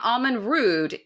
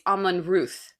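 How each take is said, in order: First: The name ends with a d sound. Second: The name ends with a th sound. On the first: The speaker calls it wrong. "it's not Almond Rude" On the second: The speaker calls it right. "supposed to be pronounced T H"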